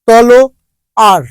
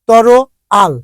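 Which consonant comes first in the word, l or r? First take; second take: l; r. First: The l sound comes before the r sound. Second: The r sound comes before the l sound. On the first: "ল শেষের র" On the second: "রটা লর জায়গায় চলে এসেছে"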